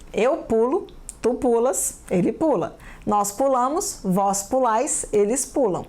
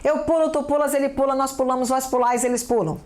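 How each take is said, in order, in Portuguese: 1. É lida em ritmo normal, sem pressa. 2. É lida muito rápido.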